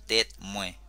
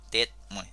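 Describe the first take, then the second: No difference in how they are said.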